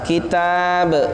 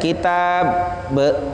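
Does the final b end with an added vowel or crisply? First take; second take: crisply; added vowel. First: The final b is released quickly and crisply. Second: The final b is followed by an extra vowel. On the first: The speaker calls it right. "Dia harus cepat" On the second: The speaker calls it wrong. "Jangan sampai kitab be"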